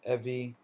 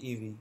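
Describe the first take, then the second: First: It is said as a two-syllable word. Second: It is said as two separate letter names. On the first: "or Evi" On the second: "I pronounce it E V"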